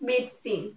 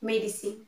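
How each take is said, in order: First: The middle 'i' vowel is dropped. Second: The middle 'i' vowel is pronounced. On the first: The speaker calls it right. "I will not be pronounced" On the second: The speaker calls it wrong.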